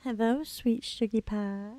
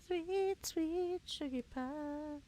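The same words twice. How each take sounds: First: Said in the usual way. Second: High, soft and slow cooing. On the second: Acted. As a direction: coo it softly like to a pet. Coos at in-game pet.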